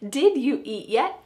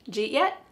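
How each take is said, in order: First: Every word is said in full. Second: Did is dropped and you becomes j. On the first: "This means, did you eat yet?" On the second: "we're dropping did and we're keeping j and then eat"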